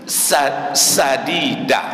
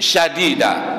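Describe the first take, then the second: First: The word begins with an 's' sound. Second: The word begins with an 'sh' sound. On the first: It means good, proper speech. The speaker calls it right. "dengan sin" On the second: It means harsh speech. The speaker calls it wrong. "yang pertama dibaca dengan shin"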